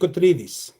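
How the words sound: The name is said with a Greek pronunciation. "Or in Greek, it would be"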